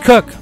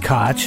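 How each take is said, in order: First: The name is said like 'cook'. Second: The name is said like 'kotch'. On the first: This is how everyone else says it. "If you're anybody else, it's Cook" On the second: This is how the mayor of New York says it. "If you're the mayor of New York, it's Koch"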